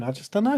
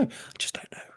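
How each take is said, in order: First: Said in the usual way. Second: Whispered, barely audible; breathy repeat, voiceless. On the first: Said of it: "said twice, second whispered". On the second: Shown as a demonstration. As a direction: drop it to a secret whisper. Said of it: "repeated as a whisper".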